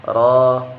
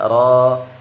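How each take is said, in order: No difference in how they are said.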